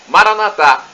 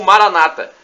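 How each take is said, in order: First: The stress is on the last syllable. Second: The stress is not on the last syllable. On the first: This is how Catholics say it. "Expressão com a tônica na última sílaba, como dizemos nós católicos" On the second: This is how Protestants say it. "como dizem nossos irmãos separados, os evangélicos ou protestantes"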